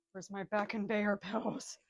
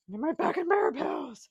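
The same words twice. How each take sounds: First: Said in the usual way. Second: Higher, louder hammed-up crying plea; mock wail. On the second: Man searching for back pills, hammed-up wail. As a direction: wail it like a melodramatic invalid. Same words, plain then wailed.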